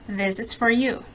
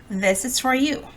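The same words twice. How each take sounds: No difference in how they are said.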